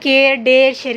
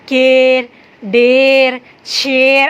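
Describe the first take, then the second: First: The words are said quickly and smoothly. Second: The words are said slowly and drawn out. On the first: The speaker calls it right. "इसको जल्दी जल्दी पढ़ रहे हैं" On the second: The speaker calls it wrong. "ऐसे नहीं पढ़ते"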